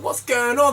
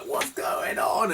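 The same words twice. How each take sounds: First: Lightly voiced bewildered child; high-pitched mimicked child's question; little kids. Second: Very slow, high mimicked wail; high, stretched-out imitation of her; older woman. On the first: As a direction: ask it high, like a puzzled kid. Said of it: "The little, little kids were like". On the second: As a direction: draw it out like a baffled older woman. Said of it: "I guess she was, like, fifty, sixty".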